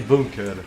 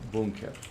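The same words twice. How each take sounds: First: The u vowel is hard. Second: The u vowel is softer. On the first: This is how the listener says it. "I don't say bunker. ... you say it like hard" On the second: This is how the speaker says it. "with u being softer"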